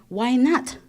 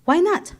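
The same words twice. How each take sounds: First: Said in the usual way. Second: Much higher and louder, pressing hard; emphatic. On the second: Retold or imitated. Retelling her pitch for the name, emphatic and louder. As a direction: push the question at them. Retold insistence, repeated question.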